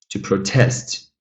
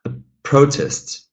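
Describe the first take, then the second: First: "protest" as a verb, second syllable stressed; slowly, light start, weight on TEST in "protest". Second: "protest" as a noun, high stressed PRO; stress on first syllable. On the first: Teacher models the verb for students, second-syllable stress in "protest". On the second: Teacher models the noun for students, first-syllable stress in "protest". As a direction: slowly, hit the PRO in "protest". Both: Shown as a demonstration. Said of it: "that changes the pronunciation".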